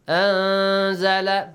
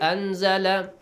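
First: The n sound is hidden and nasalized. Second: The n sound is pronounced fully and clearly. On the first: The speaker calls it right. "This is the correct way to recite it" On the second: The speaker calls it wrong. "This is wrong"

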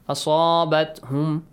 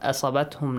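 First: The vowel after the s is prolonged. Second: The vowel after the s is short. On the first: The speaker calls it right. "Make sure you prolong it" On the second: The speaker calls it wrong. "Not asabatum"

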